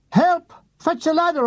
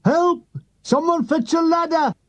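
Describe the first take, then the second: First: High yell up at a passing plane; shouting for help. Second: Stuck soldier yelling for a ladder; shouting for help. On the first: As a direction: holler for help into the sky. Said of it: "I shouted at it". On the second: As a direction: call out desperately from up high. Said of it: "Forrest shouts". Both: Retold or imitated.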